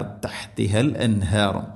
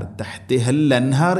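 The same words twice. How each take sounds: First: തഹ്തിഹൽ അൻഹാർ joined through the al; correct reading. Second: തഹ്തിഹൽ അൻഹാർ with the al dropped; wrong reading. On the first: Teacher giving the correct reading. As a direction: link തഹ്തിഹൽ to അൻഹാർ properly. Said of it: "അൽ അൻഹാർ". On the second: Teacher showing the reading to avoid. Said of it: "എന്ന് വായിക്കരുത്". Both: Shown as a demonstration.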